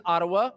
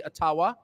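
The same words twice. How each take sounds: First: Ottawa said the usual Canadian way, stress on the first syllable, AH-tuh-wuh; plain Ottawa, first syllable stressed, last vowels reduced; standard Ottawa. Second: Ottawa as uh-TAH-wah, stress on the second syllable, full ah vowels; Ojibwe-style Ottawa. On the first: Speaker naming the capital in the usual Canadian way, plain pronunciation. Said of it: "or as we say, Ottawa". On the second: Speaker showing the crowd his deliberate Ojibwe-style pronunciation. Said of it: "correct pronunciation". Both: Shown as a demonstration.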